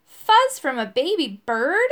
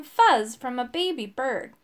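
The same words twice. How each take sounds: First: Slow, loud, incredulous question; stretched, appalled echo; crying out. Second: Said in the usual way. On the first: A narrator's reading. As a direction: cry it out in shocked disbelief. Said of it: "I cried". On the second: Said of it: "He was stirring a pot".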